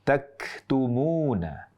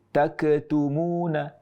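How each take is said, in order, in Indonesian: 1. Bunyi k dilepas biasa saja, tanpa pantulan. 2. Bunyi k dilepas dengan pantulan bergema.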